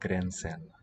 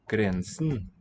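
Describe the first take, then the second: First: The final syllable has a full e vowel. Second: The final syllable's vowel is weak or dropped. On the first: The speaker calls it wrong. "it's not a full syllable here. It's not grensen with an e there" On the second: The speaker calls it right. "it just weakens... either becomes a neutral schwa or drops out"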